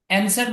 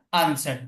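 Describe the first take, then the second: First: অ্যানসার starting on a front "a" as in cat; American vowel. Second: আনসার starting on a broad "ah"; British vowel. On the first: Teacher recaps both options, অ্যানসার with front vowel. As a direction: say অ্যানসার with the অ্যা vowel first. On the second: Teacher recaps both options, আনসার with broad vowel. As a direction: say আনসার with a long open আ. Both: Shown as a demonstration. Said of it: "এখানে দুইভাবে বলা যায়".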